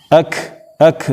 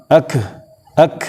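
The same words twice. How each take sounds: The two takes are said the same way.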